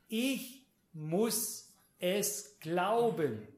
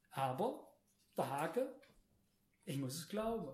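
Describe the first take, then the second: First: Very slow, each word set apart; slow and emphatic. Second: Softer, lower restatement of the condition; quiet reminder. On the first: Preacher tells congregation the catch, slow and emphatic. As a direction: spell out the condition word by word. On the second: Preacher reminds congregation of the catch, quiet and low. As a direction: drop the volume and say it simply. Repeats the catch after pauses. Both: Real, not acted.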